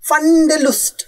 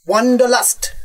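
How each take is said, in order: First: It starts with a v sound, German style. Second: It starts with a w sound, English style. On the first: "এই তো।" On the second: "কিন্তু তোমার মতো উচ্চারণ করেননি।"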